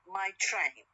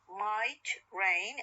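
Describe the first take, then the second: First: The t is aspirated, starting the second word. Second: The t is unaspirated, ending the first word. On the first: "t, is aspirated one" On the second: "it comes at the end of the word might, no, it is unaspirated"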